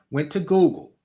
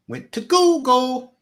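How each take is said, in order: First: Said in the usual way. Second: High, slow and loud; emphatic high. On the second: Real, not acted. Rhetorical answer, emphatic.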